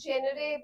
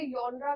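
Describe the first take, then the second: First: The word begins with a 'jen' sound. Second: The word begins with a 'yon' sound. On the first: "बहुत से बच्चे इसे जेनरे pronounce करते हैं" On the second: "कुछ लोग इसे यॉनरा कहते हैं"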